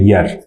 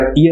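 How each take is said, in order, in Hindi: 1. यह शब्द 'y' की आवाज़ से शुरू होता है। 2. यह शब्द 'ee' स्वर से शुरू होता है। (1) "इसकी साउंड होती है यर" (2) "हम इसको कई बार ईयर बोल देते हैं, ये ईयर नहीं है"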